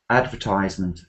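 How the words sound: It is said with American word stress. "in America they would mostly say advertisement"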